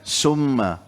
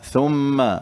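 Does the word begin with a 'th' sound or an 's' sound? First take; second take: s; th. First: The word begins with an 's' sound. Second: The word begins with a 'th' sound. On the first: It means 'poison'. The speaker calls it wrong. "dengan sin, jadi racun" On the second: It means 'then'. The speaker calls it right. "harf tha kemudian"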